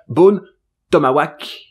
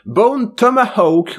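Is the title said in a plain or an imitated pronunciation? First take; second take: imitated; plain. First: The title is said in an imitated, distinctive pronunciation. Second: The title is said in an ordinary pronunciation.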